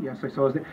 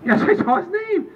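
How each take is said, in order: First: Said in the usual way. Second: Much higher, exasperated reply; exasperated answer. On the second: Acted. Answering the same ballot question, high and exasperated. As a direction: insist in a high, worked-up voice. Acted exchange escalating.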